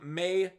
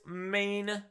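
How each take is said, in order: First: The name ends without an n sound. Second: The name ends with an n sound. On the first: The speaker calls it right. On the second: The speaker calls it wrong.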